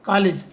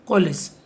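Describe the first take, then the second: First: कॉलेज said as "kaalej" with a flat a; wrong pronunciation. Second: कॉलेज said with ऑ between a and o, "kolej"; correct pronunciation. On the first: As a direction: demo the wrong कॉलेज with open a sound. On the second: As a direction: demo the right कॉलेज with rounded o. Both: Shown as a demonstration. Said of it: "उच्चारण भी अ और ओ के बीच होगा".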